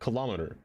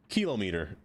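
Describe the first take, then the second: First: The stress is on the second syllable. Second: The stress is on the first syllable.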